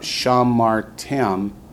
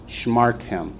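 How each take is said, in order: First: The first syllable has a full vowel. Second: The first syllable is reduced, almost no vowel. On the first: The speaker calls it wrong. "It's not shamartem" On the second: The speaker calls it right. "the shiva under the sheen makes it a short syllable"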